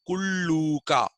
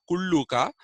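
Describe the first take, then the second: First: The u vowel is a long oo. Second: The u vowel is short. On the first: The speaker calls it right. "but Kulluka" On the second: The speaker calls it wrong. "not Kulluka"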